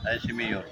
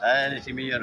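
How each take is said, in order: First: Said in the usual way. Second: Surprised greeting. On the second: Real, not acted. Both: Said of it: "repeats greeting".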